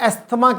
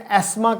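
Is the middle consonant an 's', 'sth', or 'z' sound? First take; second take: sth; s. First: The middle has an 's' followed by 'th'. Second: The middle has a plain hissing 's' sound. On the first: This is how local doctors say it. "हमारे बड़े बड़े doctors जो हैं वो एस्थमा कहते हैं" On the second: This is how it is said in Britain. "Britain में एस्मा कहा जाता है"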